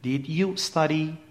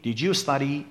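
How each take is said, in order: First: Said slowly, 'd' and 'you' stay separate. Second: Said fast, 'did you' merges into a 'j' sound. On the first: "اگر جمله رو شمرده شمرده بگیم هرگز این اتفاق نمیفته" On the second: "وقتی سریع میگیم did you study، این صدای ج شنیده میشه"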